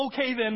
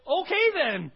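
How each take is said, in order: First: Loud repeat of the phrase; asking the crowd for that moment, loudly; echoed exclamation. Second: Loud, high, firm resolve; waking up and deciding to believe, shouted; decisive exclamation. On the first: Shown as a demonstration. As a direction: call it out again. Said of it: "How many of you need". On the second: Acted.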